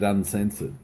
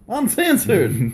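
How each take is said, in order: First: It is said in a plain, ordinary voice. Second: It is said in a loud, dramatic announcer voice.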